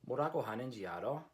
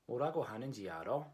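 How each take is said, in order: First: The pitch rises at the end like a question. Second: The same.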